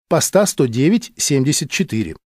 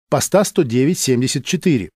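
No difference in how they are said.

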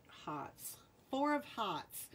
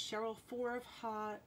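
First: Rhode Island accent, r dropped in "Hearts" as "hahts". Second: Said in the usual way. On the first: Shown as a demonstration. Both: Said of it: "That's my Rhode Island accent".

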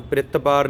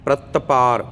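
First: ਪ੍ਰਿਤ ਪਾਰ with the r joined to p; wrong pronunciation. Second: ਪ੍ਰਿਤ ਪਾਰ with the r under the t; correct pronunciation. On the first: Teacher showing students the mistake, joined pr in ਪ੍ਰਿਤ. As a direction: run the r into the p of ਪ੍ਰਿਤ, as the careless reading does. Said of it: "ਨਹੀਂ ਕਰਨਾ". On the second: Teacher modelling the right reading for students, r after the t. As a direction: keep p separate and let the r follow the t in ਪ੍ਰਿਤ. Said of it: "ਤੇ ਪ੍ਰਿਤ ਪਾਰ ਬੋਲਣਾ". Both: Shown as a demonstration.

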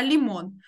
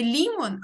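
First: Лімон stressed on МОН; лімон with a weighted ending, МОН; stress on last syllable. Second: Лімон stressed on the first syllable, ЛІ; лімон with the accent up front on ЛІ; wrong-syllable stress. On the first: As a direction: land the accent on the final syllable of лімон. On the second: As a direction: punch the ЛІ in лімон. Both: Shown as a demonstration. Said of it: "я тут не могла поставити наголос".

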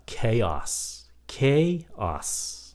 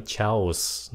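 First: CHAOS slowly, as "KAY-oss"; correct pronunciation. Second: CHAOS misread as "chows"; wrong pronunciation. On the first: Teacher corrects learners, slow "KAY-oss" for CHAOS. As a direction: stretch CHAOS into two syllables with a K. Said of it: "nó là". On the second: Teacher shows the mistake, CHAOS as "chows". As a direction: say CHAOS with CH, in one syllable. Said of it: "Đây là không phải". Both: Shown as a demonstration.

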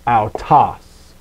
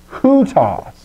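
First: "autos" begun straight on the vowel, no h; smooth vowel start on "autos"; no rough breathing. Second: "hutos" begun with an audible h; breathed h opening "hutos"; rough breathing. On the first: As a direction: open "autos" on a plain "ow" sound. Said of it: "rather than the autos". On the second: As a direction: sound the h at the start of "hutos". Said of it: "rough breather". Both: Shown as a demonstration.

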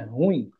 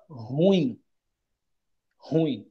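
First: Ruim as one syllable, U and I glided together; right pronunciation. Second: Ruim split into two syllables, ru-IM; wrong pronunciation. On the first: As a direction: say ruim as a single falling syllable. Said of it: "só que ruim não é ruim". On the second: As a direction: say ruim as ru-IM, stress on the i. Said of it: "como se isso aqui ficaria separado". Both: Shown as a demonstration.

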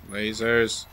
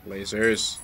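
No difference in how they are said.

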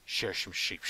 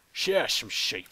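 First: Said in the usual way. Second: Louder, odd put-on voice for a cheer; silly put-on voice. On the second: Player cheers about shearing sheep in a goofy louder voice. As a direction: belt it out in a goofy voice. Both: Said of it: "I don't know why I was talking like that".

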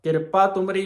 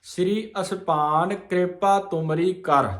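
First: ਕਿਰਪਾ ਤੁਮਰੀ run together quickly as one unit, the wrong way; wrong phrasing. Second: Line runs through to rest on ਕਰ; pause after ਕਰ. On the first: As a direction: show the wrong grouping. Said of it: "ਨਹੀਂ ਹੈ". (ਗਲਤ ਵਿਸਰਾਮ ਕਿਰਪਾ ਤੁਮਰੀ) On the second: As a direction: stop only at ਕਰ. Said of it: "ਕਰ ਤੇ ਵਿਸਰਾਮ ਆ". (ਕਰ ਤੇ ਵਿਸਰਾਮ) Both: Shown as a demonstration.

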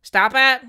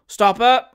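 First: Lightly voiced lad, high and loud; a hint of a boy's high call; boy repeating the order. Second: Loud, raised command; commanding call across the deck; captain's cry. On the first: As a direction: relay the shout like a ship's boy. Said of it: "repeated the boy". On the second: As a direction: shout the order as ship's captain. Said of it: "cried the captain". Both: A narrator's reading.

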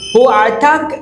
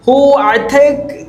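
First: "ഹു അറ്റാക്ക്" said at normal pace, slightly higher; model pronunciation. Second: Higher, slow "ഹു അറ്റാക്ക്" with a rising end; teacher modelling the Arabic phrase slowly; slow model pronunciation. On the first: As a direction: repeat the phrase at speaking speed. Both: Shown as a demonstration. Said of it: "എൻ്റെ pronunciation".

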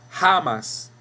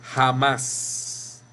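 First: Jamás mispronounced as JA-mas; wrong first-syllable stress. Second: Jamás said slowly, ja-MÁS; correct final stress. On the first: Teacher shows students what we don't say, stressing JA in jamás. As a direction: punch the JA of jamás high, let the end fall. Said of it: "No decimos jamás". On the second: Teacher shows students what we do say, jamás stressed on a long MÁS. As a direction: draw out the last syllable of jamás. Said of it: "Decimos jamás". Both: Shown as a demonstration.

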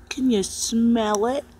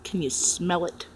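First: Teasing slow question. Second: Said in the usual way. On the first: Acted. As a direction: stretch it out teasingly. Repeated question, slow and raised.

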